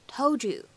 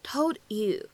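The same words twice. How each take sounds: First: "told you" blended into "tol-joo"; assimilated sounds. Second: "told you" as two separate words; careful "told you", no blending. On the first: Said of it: "我们可以有一个音的同化的现象". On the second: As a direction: keep the d of "told" apart from "you". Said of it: "放在一起的话呢". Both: Shown as a demonstration.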